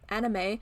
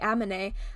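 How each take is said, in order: First: The n comes before the m. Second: The m comes before the n. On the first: The speaker calls it right. "instead of saying" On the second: The speaker calls it wrong. "if I say the word anime wrong"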